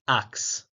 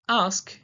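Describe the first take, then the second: First: It ends with a K then S. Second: It ends with an S then K.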